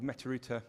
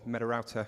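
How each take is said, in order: First: The name is said with a British pronunciation. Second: The name is said with an American pronunciation.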